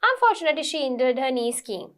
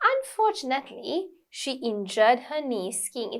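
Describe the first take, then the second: First: It runs on with no pause after unfortunately. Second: There is a short pause after unfortunately. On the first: The speaker calls it wrong. "you don't say it like" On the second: The speaker calls it right. "you need a bit of pause after certain words"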